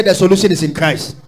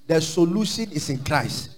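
First: "The solution is in Christ" said louder with a falling end; louder repeat. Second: Said in the usual way. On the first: Shown as a demonstration.

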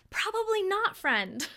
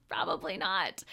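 First: A sing-song higher "Probably not, friend"; playful high tease. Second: Laughing, lower. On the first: Acted. Teasing answer, then repeated. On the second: Real, not acted. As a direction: chuckle it down low, gently. Laughing repeat of the answer.

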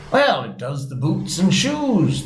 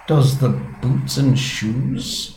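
First: Slow, higher-pitched solemn reply. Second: Very slow, puzzled question; wondering. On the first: Griffin answers Alice's question about whiting, solemnly. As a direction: draw it out with mild gravity. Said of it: "the Griffin replied very solemnly". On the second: Alice repeats the Griffin's baffling answer, wondering. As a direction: echo it slowly in wonder, pitched up. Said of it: "she repeated in a wondering tone". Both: A narrator's reading.

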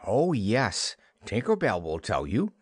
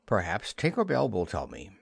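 First: Mildly scornful retort. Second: Mildly piqued suggestion; a little nettled. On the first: Wendy mocks Peter's idea about Tinker Bell, scornfully. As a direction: throw it back with understated scorn. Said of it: "Wendy retorted scornfully". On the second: Peter turns from Wendy to Tink, slightly nettled. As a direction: say it with a touch of pique. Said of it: "a little nettled". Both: A narrator's reading.

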